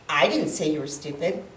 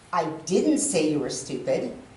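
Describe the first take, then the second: First: The stress is on the word 'I'. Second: The stress is on the word 'didn't'. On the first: Someone else said it. "if I put the emphasis in that on the first word I" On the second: The speaker wanted to say it but held back. "that would mean I wanted to, but I didn't"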